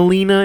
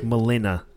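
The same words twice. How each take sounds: First: Said in the usual way. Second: Melina with a light Russian lilt; slight Russian accent. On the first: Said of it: "but, like, they kinda like Melina". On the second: Shown as a demonstration. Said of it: "a bit of a Russian accent".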